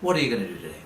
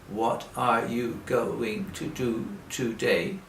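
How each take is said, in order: First: It is said fast and run together. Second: It is said slowly, word by word.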